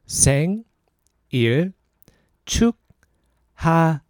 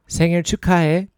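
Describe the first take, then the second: First: It is said slowly. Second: It is said fast.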